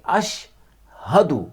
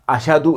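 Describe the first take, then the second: First: A clear h sound comes before the d. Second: The middle sound is a single plain d. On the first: The speaker calls it right. "बल्कि साफ पढ़ेंगे अशहदु" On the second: The speaker calls it wrong. "अशदु नहीं पढ़ेंगे"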